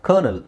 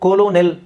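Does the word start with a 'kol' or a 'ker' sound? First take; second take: ker; kol. First: It begins with 'ker' and has two syllables. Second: It begins with 'kolo' and has three syllables. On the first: The speaker calls it right. "ಇಲ್ಲಿ ಕೋಲೋ ಯಾವುದೂ ಇಲ್ಲ" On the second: The speaker calls it wrong. "ಇದೇನಿದು? ಕೊಲೋನೆಲ್, ಹೌದಾ?"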